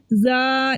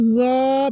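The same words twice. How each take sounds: First: ज़ा as a light, open "zaa"; thin, front ज़ा; thin wrong Z. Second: ज़ा as a thick, rounded "zaw"; heavy correct Z. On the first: Teacher showing what not to read, light "zaa". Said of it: "नहीं पढ़ना". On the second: Teacher showing what to read, heavy "zaw". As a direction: fill the mouth on ज़ा. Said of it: "पढ़ना है". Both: Shown as a demonstration.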